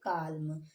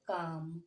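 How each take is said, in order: First: The L sound is pronounced. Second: The L sound is silent. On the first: The speaker calls it wrong. "अब आप इसे क्या पढ़ते होंगे" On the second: The speaker calls it right. "लेकिन अब हम इसे क्या पढ़ेंगे"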